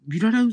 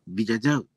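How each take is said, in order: First: The middle consonants are r sounds. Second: The middle consonants are j sounds. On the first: The speaker calls it wrong. "いや正しくないって言うんですよね" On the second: The speaker calls it right. "本当はビジャジャウっていうと"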